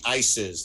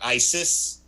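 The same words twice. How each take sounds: First: It is said like the plural of ice. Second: It is not said like the plural of ice. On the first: It names the two rappers called Ice. The speaker calls it right. "like plural of ice" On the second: It names the militant group. The speaker calls it wrong. "not ISIS"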